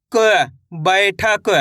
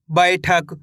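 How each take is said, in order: First: क held alone, then बैठक drawn out slowly; letter-by-letter reading. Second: Said in the usual way. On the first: Shown as a demonstration. Teacher spells for pupils, slow drawn-out क and बैठक. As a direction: sound out क slowly, then stretch बैठक to its last consonant. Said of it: "एक अक्षर का उच्चारण करके". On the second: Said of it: "इनको डायरेक्ट भी पढ़ना है".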